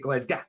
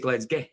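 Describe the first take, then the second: First: The word is clipped short at the end. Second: The word is drawn out a little longer. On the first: This is how the listener says the name. "You say Glasgow, you kind of cut it off" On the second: This is how people from Fraserburgh say the name. "we say Glasgow, just carry it on a little bit more"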